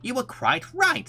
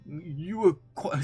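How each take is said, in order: First: High, slow, louder Rabbit; Rabbit's voice. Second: Slow, slightly raised character voice; wrong character's voice. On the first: Rabbit admits Pooh was right, high and slow. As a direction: switch up into a high character voice. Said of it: "wrong character". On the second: Reader mistakes Rabbit for Pooh, slow and only a little higher. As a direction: start slowly in the other character's voice, then break off. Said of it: "sorry, wrong character". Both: A narrator's reading.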